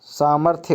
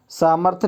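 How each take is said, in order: First: सामर्थ्य as "saamarth-ye"; correct form. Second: सामर्थ्य as "saamarth", bare ending; wrong form. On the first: Teacher correcting it, सामर्थ्य as "saamarth-ye". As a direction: sound the y ending of सामर्थ्य. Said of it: "सामर्थ्य होता है". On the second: Teacher showing the mistake, सामर्थ्य as "saamarth". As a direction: drop the final y in सामर्थ्य. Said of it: "सामर्थ्य नहीं होता". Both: Shown as a demonstration.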